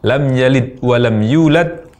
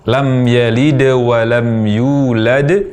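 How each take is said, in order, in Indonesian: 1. Bunyi d berakhir pendek tanpa gema. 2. Bunyi d berakhir dengan sedikit pantulan yang bergema. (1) "tanpa qalqalah pada huruf dal" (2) "diucapkan dengan qalqalah atau ada suara pantulan dari huruf dal tersebut"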